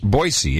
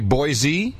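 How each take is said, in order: First: The middle consonant is a hissing S sound. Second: The middle consonant is a buzzing Z sound. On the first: The speaker calls it right. "With an S" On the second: The speaker calls it wrong. "you mean as opposed to Boise"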